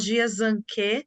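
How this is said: The name is said with Brazilian Portuguese sounds. "em português, aqui no Brasil, a gente pode falar Jiazanque"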